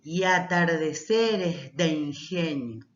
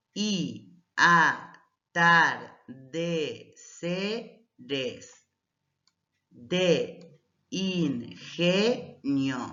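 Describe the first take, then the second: First: "y atardeceres de ingenio" with y-a and de-in run together; joined vowels. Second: Each syllable on its own, with a gap after it; slow syllable-by-syllable reading; split into syllables. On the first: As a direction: read "y atardeceres de ingenio" slowly as linked verse. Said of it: "Entonces, al leer". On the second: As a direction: say "y a-tar-de-ce-res de in-ge-nio" piece by piece. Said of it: "separamos en sílabas de manera gramatical". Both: Shown as a demonstration.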